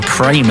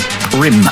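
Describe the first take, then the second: First: The name has a long 'ay' vowel. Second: The name has a short 'i' vowel. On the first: "hearing me say Prame as opposed to" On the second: "as opposed to Prim"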